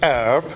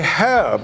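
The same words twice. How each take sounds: First: It is said the American way, without the h. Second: It is said the British way, with the h.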